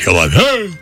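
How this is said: It is said grandly, with theatrical pathos.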